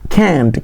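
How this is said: It is said in an American accent. "ಅದೇ American English ಕ್ಯಾಂಟ್"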